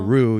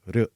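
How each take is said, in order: First: The R is a strong English R. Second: The R is soft and tapped. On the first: The speaker calls it wrong. "You don't say" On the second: The speaker calls it right. "you would say"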